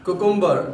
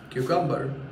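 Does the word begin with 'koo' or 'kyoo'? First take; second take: koo; kyoo. First: The word begins with a plain 'koo' sound. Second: The word begins with a 'kyoo' sound. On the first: The speaker calls it wrong. "उसे कुकुम्बर ना बोल के" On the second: The speaker calls it right. "हम बोलना चाहिए क्यूकम्बर"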